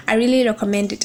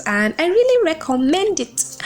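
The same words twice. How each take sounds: First: Said in the usual way. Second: "really" raised and punched, then falling; emphatic recommendation. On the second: Shown as a demonstration. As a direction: push "really" to sell the book.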